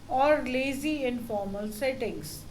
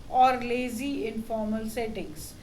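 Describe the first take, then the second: The two takes are said the same way.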